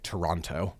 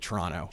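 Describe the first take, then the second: First: The second T sound is clearly pronounced. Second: The second T sound is left out. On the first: This is how many other people say it. "A lot of people say, would say" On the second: This is how local Canadians say it. "We don't pronounce the second T"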